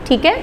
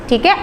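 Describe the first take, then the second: Both takes have the same delivery.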